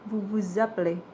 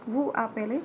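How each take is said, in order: First: The s of vous is linked as a z. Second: The s of vous is silent, no linking. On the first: The speaker calls it right. "tapi vous vous appelez" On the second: The speaker calls it wrong. "bukan vous appelez"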